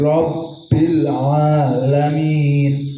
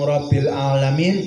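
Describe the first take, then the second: First: The B sound is held long and doubled. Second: The B sound is short and single. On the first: The speaker calls it right. "Robnya itu kedah ditekan" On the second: The speaker calls it wrong. "namung Rabbil alamin boten sah"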